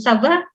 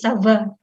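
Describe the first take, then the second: First: The voice rises at the end. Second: The voice falls at the end. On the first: It asks how someone is. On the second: It answers that one is fine.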